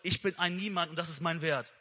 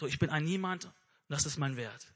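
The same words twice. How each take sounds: First: It is said in a milder, less intense tone. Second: It is said in a heavier, more despairing tone.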